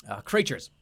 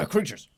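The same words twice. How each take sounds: First: Said in the usual way. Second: Clean redo. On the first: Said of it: "clears throat, redoes it". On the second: Shown as a demonstration. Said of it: "redo after voice crack".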